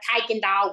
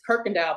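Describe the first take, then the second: First: The first syllable has no R sound. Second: The first syllable has an R sound. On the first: This is how people from elsewhere say it. The speaker calls it wrong. "everybody else is like Kuykendall" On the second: This is how local people say it. The speaker calls it right. "the word is Kirkendall"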